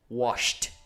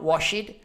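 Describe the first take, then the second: First: The word ends in a plain T sound. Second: The word does not end in a T sound. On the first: The speaker calls it right. "with a final T sound" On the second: The speaker calls it wrong. "not washed"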